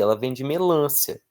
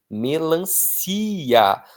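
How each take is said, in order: First: "melância" stressed on the second syllable, -lân-; mock the error, "melância" with the stress on "lân"; "melância" with stress on the a, the wrong way. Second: "Melancia." stressed on the last syllable, "si", said very slowly; slow model "Melancia." with the stress on "ci"; correct stress, slow. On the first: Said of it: "não precisa de acento nesse A aí". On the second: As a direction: spell it out slowly, "Melancia.", landing on "si". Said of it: "A tônica é o si". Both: Shown as a demonstration.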